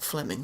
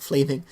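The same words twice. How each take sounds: First: Said in the usual way. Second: Fleming with a long ee, "FLEE-ming"; mispronounced Fleming. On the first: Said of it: "not, not Fleming". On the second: Shown as a demonstration. Player correcting the manager's name, mispronouncing it as FLEE-ming. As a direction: say Fleming as if spelt "Fleeming". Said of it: "we want, we want Fleming".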